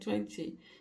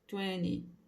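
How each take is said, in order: First: It is said the British way. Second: It is said the American way. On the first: "você pode até falar lá na Inglaterra, mais comum" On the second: "nos Estados Unidos e no Canadá você vai ouvir"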